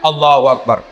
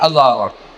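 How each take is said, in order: First: It is said overly eagerly, with high energy. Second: It is said sleepily, with low energy.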